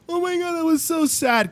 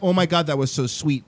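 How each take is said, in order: First: High-pitched pretend tearful reaction; put-on high sad wail; mock sad crying. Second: Understated mock tenderness; mock touched reaction. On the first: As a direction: imitate someone upset, pitched way up. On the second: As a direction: pretend to be moved by sweetness. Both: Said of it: "kind of cry".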